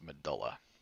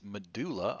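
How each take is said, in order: First: It is said the standard anatomical way. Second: It is said the popular movie way. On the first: This is the accepted pronunciation used elsewhere in anatomy. The speaker calls it right. "it should be pronounced medulla" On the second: This follows a pronunciation made popular by a film. The speaker calls it wrong. "a lot of people pronounce this medulla oblongata now"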